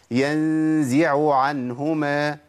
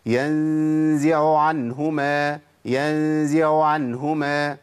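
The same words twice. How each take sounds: First: العين في "ينزع" واضحة ثم عين "عنهما"; نطق العينين كاملتين ببطء; clear ain. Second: العين في "ينزع عنهما" باهتة وساقطة; "ينزع" بلا عين واضحة قبل "عنهما"; dropped ain. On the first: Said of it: "اسمعوا الصح". (العينان واضحتان) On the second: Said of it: "اسمعوا كده الخطأ". (العين الأولى باهتة) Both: Shown as a demonstration.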